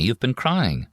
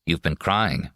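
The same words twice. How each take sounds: First: You've been crying pitched higher, pressing the point; insistent repeat. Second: Said in the usual way. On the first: A narrator's reading.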